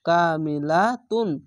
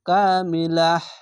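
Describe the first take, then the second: First: The word ends with the syllable 'tun'. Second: The word ends with a soft 'h' sound. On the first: The speaker calls it wrong. "এই তুন না বলে" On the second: The speaker calls it right. "কামিলাহ এভাবে থামতে হবে"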